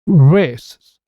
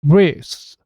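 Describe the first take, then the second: First: The k drops and two short s sounds follow. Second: The same.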